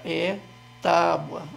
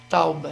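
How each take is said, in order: First: The u sound comes after the b. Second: The u sound comes before the b. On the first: The speaker calls it right. "A sílaba forte é no tá, é B U A" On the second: The speaker calls it wrong. "muda o u de lugar"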